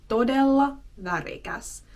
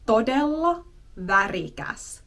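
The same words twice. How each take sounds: The two takes are said the same way.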